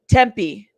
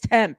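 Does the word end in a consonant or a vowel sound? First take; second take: vowel; consonant. First: It ends with an added final vowel sound. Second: It ends on a consonant with no final vowel. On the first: The speaker calls it right. "Thank you" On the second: The speaker calls it wrong. "I'm thinking it's tempt, and I'm not even thinking of the E"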